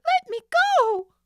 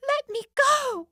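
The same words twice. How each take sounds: First: Even higher, louder scream; more desperate scream. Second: Very high loud scream; desperate cry. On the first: Nancy struggles harder, screaming louder. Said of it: "struggling harder". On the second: Nancy struggles against Sid, screaming to be let go. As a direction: fight to break free. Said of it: "Nancy cried". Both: Acted.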